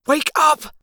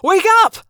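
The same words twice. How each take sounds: First: High, tense, restrained urging; urgent hiss. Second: High, loud shouted command; urgent yell. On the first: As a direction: hiss it without a full yell. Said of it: "I hissed". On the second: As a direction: yell it to jolt someone awake. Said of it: "I yelled". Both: A narrator's reading.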